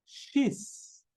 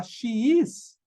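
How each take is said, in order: First: "she's" as one short breathy syllable; contracted form. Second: "she is" as two separate full words; full form. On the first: Teacher to students, showing the contraction "she's". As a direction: clip "she is" into "she's". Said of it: "você pode falar". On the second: Teacher to students, giving the full "she is". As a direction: say "she is" unreduced. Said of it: "Em vez de falar". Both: Shown as a demonstration.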